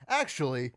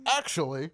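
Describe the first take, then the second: First: Said in the usual way. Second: Mock pedantic "actually"; lightly voiced know-it-all correcting someone; glasses-pushing know-it-all. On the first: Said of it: "Then you put in, it says". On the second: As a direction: push up imaginary glasses as you say it. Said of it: "I pushed my glasses up".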